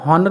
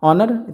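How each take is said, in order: First: The word starts with an h sound. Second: The word starts with a vowel, no h. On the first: The speaker calls it wrong. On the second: The speaker calls it right.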